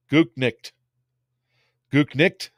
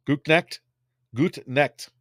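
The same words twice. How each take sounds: First: "Gutnicht" with a German-ish final cht; trying the name. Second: "Gutnecht" with an open e as in necked; corrected vowel. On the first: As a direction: test "Gutnicht" like a German word. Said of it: "Did I say it right?". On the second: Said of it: "Like nicked. Necked". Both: Shown as a demonstration.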